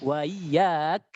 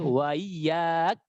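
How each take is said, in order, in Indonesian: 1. Hamzah dilunakkan dan diringankan. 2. Hamzah dilunakkan dan diringankan.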